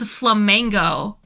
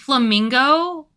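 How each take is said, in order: First: The second syllable sounds like 'meng'. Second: The second syllable sounds like 'ming'. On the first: The speaker calls it wrong. "I had been saying flamengo" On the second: The speaker calls it right. "I thought flamingo was flamengo"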